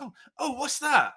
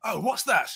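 First: Curious local. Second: Attempted Cumbrian accent. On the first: Retold or imitated. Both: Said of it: "I can't do a proper Cumbrian accent".

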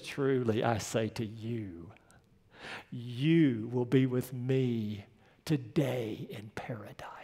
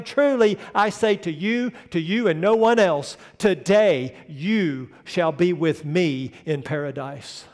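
First: Hushed, much lower and softer, slow; tender whisper. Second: Bold proclamation. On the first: Dying Jesus whispering comfort to the thief, hushed. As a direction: breathe the promise like a dying man. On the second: Preacher voicing Jesus's promise to the thief, ringing out. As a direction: proclaim it like a king's decree. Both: Acted.

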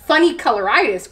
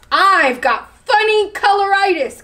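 First: Lightly growled lion echo; growling. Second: High, emphatic declaration; bluffing announcement. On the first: Lion doubting chameleon as he backs away, mild growl. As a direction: repeat it as a slightly wary lion. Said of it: "growled Lion". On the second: Chameleon inventing an illness for lion, high and emphatic. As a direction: proclaim it with pitch up. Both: A narrator's reading.

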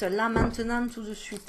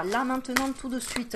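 First: "tout de suite" fading off in a light Southern French twang; half-hearted Southern French accent. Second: Put-on a light Southern French accent on "Là, maintenant, tout de suite"; playful Marseille-style lilt; mock Southern French singsong. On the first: Pretend. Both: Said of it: "Pourquoi je prends l'accent du Sud?".

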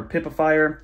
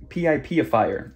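First: PIPIFIER said "pip-uh-fire"; said as one word. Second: P I P ifier said "pee-eye-pee-uh-fire"; name each letter in P I P, then add "ifier"; letters spelled out. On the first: Host introducing the next extension, Pipifier said as one word. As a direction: say PIPIFIER as a single word, not letter by letter. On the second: Host introducing the next extension, P I P ifier spelled out. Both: Shown as a demonstration. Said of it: "whatever you guys wanna call it".

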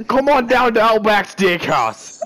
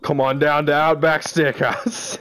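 First: High, hammed-up Australian ad voice; Australian accent. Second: Half-hearted Australian ad voice; badly faked Australian invitation; failed Australian accent. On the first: Friend retrying the steakhouse advert, in high mock Australian accent. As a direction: push out a big mock Australian invitation. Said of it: "that was pretty good". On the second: Friend's last try at the steakhouse advert, in weak Australian accent. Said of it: "I can't do it".

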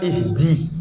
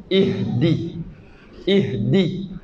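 First: Ihdi said the incorrect way; plain, mistaken ihdi; wrong ihdi. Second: Ihdi with a breathy h, then the tongue up for d; careful Ihdi; airy Ihdi; correct Ihdi. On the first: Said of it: "C'est pas ihdi". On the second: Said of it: "la langue bouge pour se coller". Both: Shown as a demonstration.

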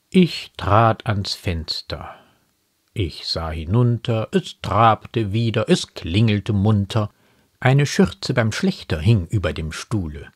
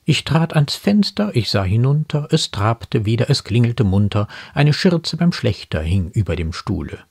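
First: Slow, measured verse with pauses; unhurried poetic delivery; poem recitation. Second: Animated poem quotation; poem quoted in commentary. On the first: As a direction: let each line of the poem stand alone. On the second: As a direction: run the lines of verse together briskly. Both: Acted.

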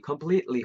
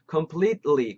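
First: "completely" as a connected alternative; completely, alternative variant. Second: "completely" in careful syllables; completely, first variant. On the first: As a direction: offer another way of saying "completely". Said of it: "혹은 completely 이렇게 할 때도". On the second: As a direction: say "completely" slowly and distinctly. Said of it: "completely 혹은 completely 이렇게 할 때도". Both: Shown as a demonstration.

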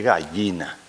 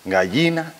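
First: "gallina" said as "gayina"; "gallina" with a plain Y sound; yeísmo. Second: First "Gallina" as "galyina"; "Gallina" with a palatal L; LL sound. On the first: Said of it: "que se llama yeísmo". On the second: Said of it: "la pronunciación de la Y por". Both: Shown as a demonstration.

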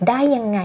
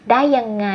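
The two takes are said the same way.

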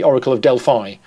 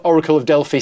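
First: Delphi said DEL-fye, ending in eye; final syllable of Delphi as fye. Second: Delphi said DEL-fee, ending in ee; final syllable of Delphi as fee. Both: Shown as a demonstration. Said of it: "the way that you say the Greek word Delphi and not Delphi".

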